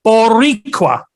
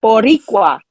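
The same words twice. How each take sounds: First: Boricua slowly, trying to roll the R; careful attempt. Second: Boricua with a rolled R, said clearly; Boricua, the Puerto Rican way; model pronunciation. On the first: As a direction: repeat Boricua carefully, R trilled. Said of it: "Let's see if I can get this". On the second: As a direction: teach it: Boricua, trill the R. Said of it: "give it to me again". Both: Shown as a demonstration.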